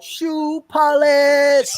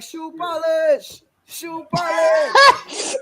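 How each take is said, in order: First: High, loud, drawn-out yell of "Shoe polish"; loud, high mocking shout, stretched slow; yelled taunt. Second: Slow, high, sing-song teasing chant with a laugh; higher, drawn-out playground jeer; mocking taunt. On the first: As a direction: yell the nickname right in her face. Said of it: "and she yelled out". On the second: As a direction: drag out the name like a schoolyard taunt. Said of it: "somebody's like".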